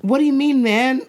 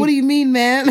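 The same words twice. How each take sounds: First: Put-on kid's London slang. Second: Put-on higher, louder laughing kid voice; kid's London slang. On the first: Mum imitates her child's slang, raised London kid voice. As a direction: copy a cheeky London kid. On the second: Mum repeats her child's line with a laugh in a London kid voice. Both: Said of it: "one of them said".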